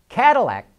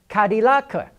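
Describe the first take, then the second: First: The name is said with English pronunciation. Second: The name is said with Mandarin pronunciation.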